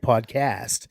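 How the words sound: It is said with an American accent. "you guys say podcast"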